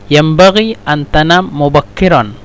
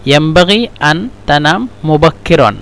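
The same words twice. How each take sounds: The two takes are said the same way.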